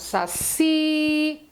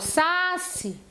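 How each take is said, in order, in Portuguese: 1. A tônica está na última sílaba. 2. A tônica está na primeira sílaba. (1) "quando eu falo saci" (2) "eu não falo saci"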